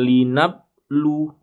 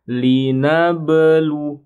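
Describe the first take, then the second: First: Linablu read quickly with a flat b; the wrong reading of linablu, no qalqalah; unbounced ba. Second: Linablu with the ba bounced, slow, higher and louder; bounced qalqalah. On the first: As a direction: say linablu without a bounce on the b. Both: Shown as a demonstration. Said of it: "bukan linablu".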